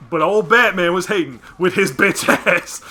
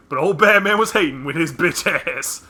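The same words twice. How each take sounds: First: Put-on loud old man voice; grumpy old granddad voice; Granddad Freeman voice. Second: Put-on loud grumpy old man; Granddad Freeman voice. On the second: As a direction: bark it like an angry granddad. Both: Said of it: "in the words of Granddad Freeman".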